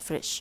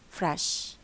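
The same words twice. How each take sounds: First: The vowel is said close, like 'frish'. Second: The vowel is said slightly more open. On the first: The speaker calls it wrong. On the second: The speaker calls it right.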